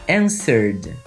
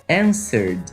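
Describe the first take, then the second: The two takes are said the same way.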